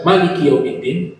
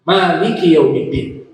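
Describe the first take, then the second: First: The first vowel of Maliki is short. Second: The first vowel of Maliki is long.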